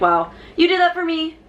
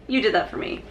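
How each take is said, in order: First: Higher, excited gasp of thanks; delighted. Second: Softer, quieter repeat; touched. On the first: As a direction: act thrilled and touched. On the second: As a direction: say it again, softly moved. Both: Retold or imitated. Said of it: "I was like".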